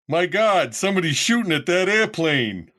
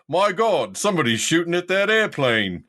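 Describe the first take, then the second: First: It is said in an American accent. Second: It is said in an attempted British accent.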